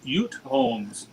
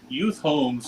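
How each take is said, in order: First: It is said in a Butte accent. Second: It is said in a standard accent.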